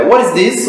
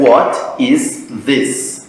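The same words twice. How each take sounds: First: "what is this" run together, T flapped; higher, linked "what is this" with a tapped T; natural linked pronunciation. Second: Very slow, separate words in "what is this"; as it is written. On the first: Teacher gives one more example, naturally linked. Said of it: "me dá mais exemplo disso". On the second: Teacher shows the spelling, word by word. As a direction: space out "what", "is", "this", each fully sounded. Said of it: "se escreve". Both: Shown as a demonstration.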